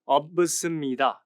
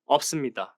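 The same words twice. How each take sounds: First: Every letter is sounded out literally. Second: The sounds blend as in natural speech. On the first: The speaker calls it wrong. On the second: The speaker calls it right. "You'll notice the same in words like"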